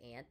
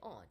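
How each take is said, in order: First: It is said with an American accent. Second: It is said with a British accent.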